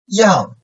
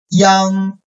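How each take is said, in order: First: The pitch falls sharply from high to low. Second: The pitch stays high and level.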